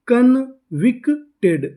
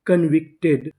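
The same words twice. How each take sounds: First: Drawn out, syllable by syllable convicted; slow blending. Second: Said in the usual way. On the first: Shown as a demonstration. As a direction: stretch convicted slowly so each sound is heard. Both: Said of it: "पूरी meaning क्या बनी?".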